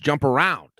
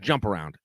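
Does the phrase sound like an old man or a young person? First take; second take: young person; old man. First: It is said like a young person says it. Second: It is said like an old man says it. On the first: The speaker calls it right. "It's jump around" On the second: The speaker calls it wrong. "you say jump around like an old man"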